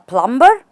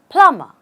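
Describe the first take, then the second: First: A B sound is pronounced after the M. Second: No B sound is pronounced after the M. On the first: The speaker calls it wrong. "But how do you call him a plumber?" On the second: The speaker calls it right. "There is again no B"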